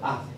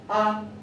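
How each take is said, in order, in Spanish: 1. La sílaba es ligera y débil. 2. El tono se mantiene alto y plano. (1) "el tono neutro queda como por defecto" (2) "primer tono, que es alto"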